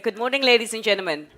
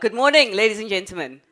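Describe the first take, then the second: First: It is said with ordinary, lower energy. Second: It is said with more energy.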